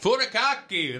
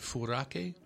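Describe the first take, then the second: First: The word is said with four syllables. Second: The word is said with three syllables. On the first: The speaker calls it right. "There's that extra K" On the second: The speaker calls it wrong. "How do you say this properly?"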